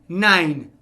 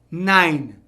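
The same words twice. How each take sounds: Both takes have the same delivery.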